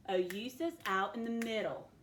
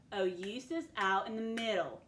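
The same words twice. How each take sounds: The two takes are said the same way.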